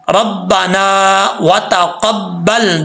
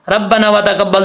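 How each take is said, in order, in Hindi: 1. इसे धीरे पढ़ा जाता है, लंबी स्वर-ध्वनियाँ खींचकर। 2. इसे जल्दी पढ़ा जाता है, लंबी स्वर-ध्वनियाँ छोटी करके।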